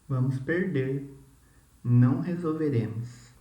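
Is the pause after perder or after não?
after perder. The pause comes after perder.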